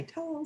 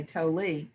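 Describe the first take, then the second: First: Tolle said as one syllable, "tole". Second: Tolle said as "toh-lee"; two-syllable Tolle. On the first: Speaker showing how some people say the writer's name, Tolle as "tole". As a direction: say Tolle with a silent final e, rhyming with "bowl". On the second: Speaker showing how other people say the writer's name, Tolle as "toh-lee". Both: Shown as a demonstration. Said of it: "if I'm pronouncing that right. It's, some people say Tolle".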